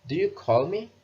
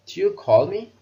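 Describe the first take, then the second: First: "Do you call me?" rising again, higher at the end but at normal level; rising question tune. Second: "Do you call me?" rising higher and louder to the end; rising question tune. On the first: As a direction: repeat with the voice going up on "me". (intonasi naik, suara biasa) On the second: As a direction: lift the pitch up through "me". (intonasi semakin naik) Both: Shown as a demonstration. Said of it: "Intonasinya akan semakin naik, go up".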